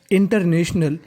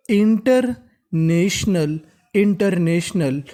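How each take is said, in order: First: Said in the usual way. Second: international stretched slowly, each part clear; teacher models international slowly; slow syllable by syllable. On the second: Shown as a demonstration. (धीरे-धीरे शब्द तोड़कर) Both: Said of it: "तो meaning बनी".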